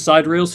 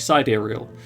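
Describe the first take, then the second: First: It sounds like the two words 'side reels'. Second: It is said to rhyme with 'ethereal'. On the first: The speaker calls it wrong. "I pronounced it as Side Reels for years" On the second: The speaker calls it right. "wait, it's ethereal? Would it not be Sidereal?"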